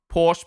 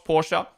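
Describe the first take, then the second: First: Porsche said as PORSH; no vowel on the end of Porsche; one-syllable Porsche. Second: Porsche said as POR-shuh; two-syllable Porsche. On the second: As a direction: add an uh to Porsche. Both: Shown as a demonstration. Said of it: "Say it the way you want".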